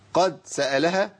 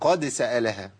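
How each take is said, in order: First: The d sound is flat, without a bounce. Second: The d sound is released with a bounce. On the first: The speaker calls it wrong. "ما تنفع" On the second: The speaker calls it right. "يبقى بين إيه قلقلة الدال"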